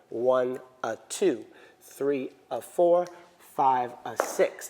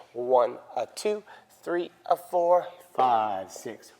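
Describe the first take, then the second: First: Slow count, lean on two, four and six; accent on even counts. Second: Slow count, heavy on the wrong beats; wrong accent. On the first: Teacher showing where the accent falls, slow count. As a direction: hit the even beats. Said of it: "the accent is on the two". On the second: Teacher demonstrating the students' mistake, slow count. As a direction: mimic the common mistake. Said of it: "This is what we tend to do". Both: Shown as a demonstration.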